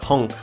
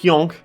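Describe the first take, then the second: First: The word is said in a plain accent. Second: The word is said in a put-on Swedish accent. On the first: "You have honk" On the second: "a Swedish hyonk"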